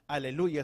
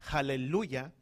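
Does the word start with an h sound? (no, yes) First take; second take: no; yes. First: The word begins with a plain vowel, no h. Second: The word begins with an audible h sound. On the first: The speaker calls it wrong. "más correctamente no es aleluya" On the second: The speaker calls it right. "sino es aleluya"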